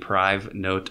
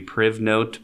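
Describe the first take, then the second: First: The first syllable sounds like the start of 'private'. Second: The first syllable does not sound like 'private'. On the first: The speaker calls it right. "it's more supposed to be PriveNote, I think, because it helps keep things private" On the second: The speaker calls it wrong. "I guess if you pronounced it, it would be PrivNote"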